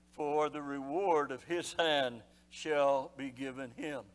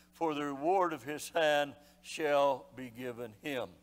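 Both takes have the same delivery.

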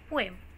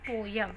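First: The second syllable sounds like a light 'em'. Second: The second syllable sounds like 'yum'. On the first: The speaker calls it right. "य नहीं, ए है, वो भी lightly बोलना है" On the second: The speaker calls it wrong. "The incorrect pronunciation of this word is पोयम"

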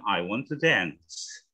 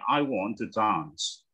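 First: It is said with an American accent. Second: It is said with a British accent. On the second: "British kalau ngomong"

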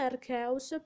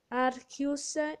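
First: The name is said the Italian way. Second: The name is said the Latin way. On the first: "per noi italiani"

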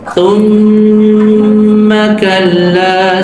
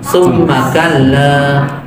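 First: The doubled m is held with a long nasal hum. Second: The doubled m is pressed but released quickly. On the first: The speaker calls it right. "Kan lebih panjang tuh" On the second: The speaker calls it wrong. "Orang cuma membaca ditekan, tapi tidak ditahan"

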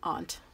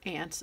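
First: The vowel is open, like in 'father'. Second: The vowel is flat, like in 'ant'. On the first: "if you're more northern or European" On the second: "that's how we say it in the Midwest"

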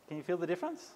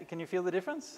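Both takes have the same delivery.

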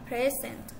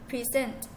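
First: The stress is on the first syllable. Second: The stress is on the second syllable. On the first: It is a noun. "present in noun space on the first syllable as a" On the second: It is a verb. "present in verb space on the second syllable as a"

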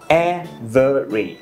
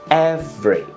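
First: The word is said with three syllables. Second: The word is said with two syllables. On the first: "3 âm tiết đúng không ạ?" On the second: "người ta đọc thành 2 thôi"

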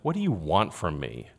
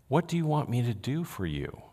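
First: The tone is dismissive and curt. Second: The tone is warm and compassionate.

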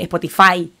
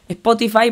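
First: The stress falls on an unusual syllable. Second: The stress falls on the usual syllable. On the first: The speaker calls it wrong. "le pone el acento en otro lado que no va" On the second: The speaker calls it right. "en vez de decir Spotify"

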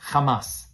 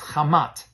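First: The word ends with an S sound. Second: The word ends with a T sound.

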